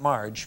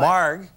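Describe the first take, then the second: First: The name ends with a soft j sound. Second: The name ends with a hard g sound. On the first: The speaker calls it wrong. "not Marge, because you hate Marge" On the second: The speaker calls it right. "Marg, not Marge"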